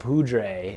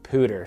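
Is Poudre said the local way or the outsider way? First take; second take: outsider; local. First: It uses the outsiders' pronunciation. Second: It uses the locals' pronunciation. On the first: The speaker is not from the area. "A lot of people are La Poudre" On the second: The speaker fits in with residents. "the locals pronounce it Poudre"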